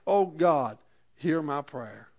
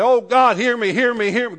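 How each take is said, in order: First: Settled plea, easing softer at the end; simple trusting prayer. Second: Raised, louder repeated begging; mock desperate pleading. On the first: Acted. Preacher shows bringing a prayer to God, calm simple plea. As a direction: pray it once, calmly, letting it fall. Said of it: "we can come to God". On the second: Preacher imitates needless begging to God, mock desperate plea. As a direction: plead over and over, pitched up and insistent. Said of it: "We don't have to go to God and say".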